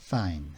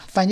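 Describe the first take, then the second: First: The f sound is made lightly and softly. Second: The f sound is pushed out forcefully. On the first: The speaker calls it right. "입술을 살짝 갖다 대고 약하게" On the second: The speaker calls it wrong. "이렇게 할 필요 없이"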